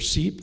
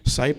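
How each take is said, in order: First: The vowel sounds like 'ee'. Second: The vowel sounds like 'eye'. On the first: "Some people pronounce it Seep" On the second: "Sipe or Seep"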